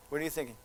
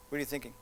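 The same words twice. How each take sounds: The two takes are said the same way.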